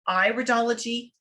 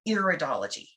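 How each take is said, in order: First: The first syllable does not sound like 'ear'. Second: The first syllable sounds like 'ear'. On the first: It means the study of the iris. The speaker calls it right. "the correct pronunciation is iridology" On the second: It sounds like the study of ears. The speaker calls it wrong. "not iridology"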